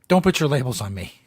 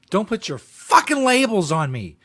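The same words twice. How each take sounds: First: Said in the usual way. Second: Slow, mock-indignant rant; hammed-up outraged rant; mocking imitation. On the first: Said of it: "host repeats the clip's line". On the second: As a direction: parody the angry speaker, slowly. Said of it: "host mimics the ranting clip".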